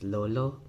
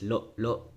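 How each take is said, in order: First: The word is said without any glottal stop. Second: The word is said with glottal stops. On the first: It means grandfather. "So it's lolo" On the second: It means to masturbate. "if there's a glottal stop in it"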